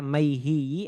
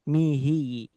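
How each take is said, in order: First: The first syllable has a diphthong 'ai' sound. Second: The first syllable has a plain 'i' sound. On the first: "Ada yang membaca maihi" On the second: "ada yang membaca mihi"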